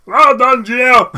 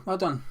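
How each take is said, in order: First: Loud, high silly cheer; hammed-up shouted pat on the back; mock congratulatory shout. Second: Said in the usual way. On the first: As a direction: yell it in over-the-top self-praise.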